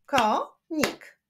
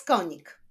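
First: "konik" split as ko, nik with a pause; syllable by syllable. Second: Said in the usual way. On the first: Shown as a demonstration. Teacher showing syllables to pupils, "konik" split in two. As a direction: clap out "konik" in two beats. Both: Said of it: "Wyklaszczmy sylaby w tych wyrazach".

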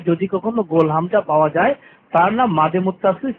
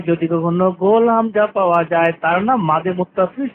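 The two takes are said the same way.

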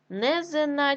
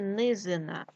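First: Низина said as Незина; е in first syllable. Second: Said in the usual way. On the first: Shown as a demonstration. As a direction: open e after Н in Низина. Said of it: "нам потрібно вставити або". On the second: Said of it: "низько".

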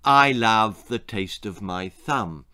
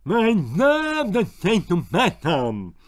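First: Said in the usual way. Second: Thumb in mouth, slow and muffled; mumbled through thumb. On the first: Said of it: "which roughly translated as". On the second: A narrator's reading. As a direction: say it with a thumb stuck in your mouth. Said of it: "he mumbled through his bottle stop digit".

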